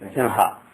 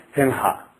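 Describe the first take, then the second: First: The nasal before the h is an ng sound. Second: The nasal before the h is an ng sound.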